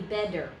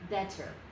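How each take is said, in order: First: The middle consonant is a full D sound. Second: The middle consonant is a full T sound. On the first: "It is not a D because that would be better" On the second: "say that word with a real T"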